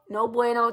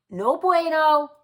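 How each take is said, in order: First: Said in the usual way. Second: "No bueno" stretched slow with a higher lift on "bueno"; drawn-out no bueno. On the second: Shown as a demonstration. To wives who nag, slow drawn "No bueno". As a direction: savor "No bueno" slowly like a verdict.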